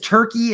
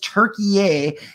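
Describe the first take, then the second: First: The name is said with two syllables. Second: The name is said with three syllables. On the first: This is the long-familiar form of the name. "for 100 years, we've known this country as Turkey" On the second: This is the newly required form of the name. "now it is Turkey-yay, and that's how you're supposed to pronounce it"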